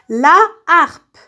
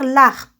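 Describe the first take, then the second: First: The article is said in full before the noun. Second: The article is elided into the noun. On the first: The speaker calls it right. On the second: The speaker calls it wrong.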